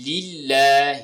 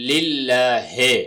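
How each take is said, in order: First: للہ slowly as "lil-laa-hee"; pure i vowels at both ends of للہ; clear zer. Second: للہ ہے slowly as "lil-laa-hay"; majhool zer. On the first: Teacher giving the reading to remember, clear zer. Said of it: "یہ آپ نے ذہن میں رکھنا ہے". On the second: Teacher showing people's mistake, majhool zer. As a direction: let the end of للہ ہے open into "hay" instead of "hee". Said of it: "مجہول پڑھتے ہیں". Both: Shown as a demonstration.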